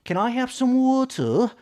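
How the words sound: It is said in a British accent. "라고 발음하는 배우들 중에 그 시대 영국계 배우"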